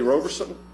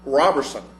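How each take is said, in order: First: The first vowel is a long O sound. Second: The first vowel is a short O sound. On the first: The speaker calls it wrong. "I keep saying Roe" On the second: The speaker calls it right. "he said it's Robertson"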